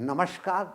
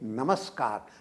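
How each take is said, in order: First: The middle consonant is a palatal 'sh' sound. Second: The middle consonant is a dental 's' sound. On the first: The speaker calls it wrong. "यह तालव्य श नहीं है ... नमस्कार नहीं बोलना चाहिए" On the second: The speaker calls it right. "ये दंत्य स है। ... हमें बोलना चाहिए नमस्कार"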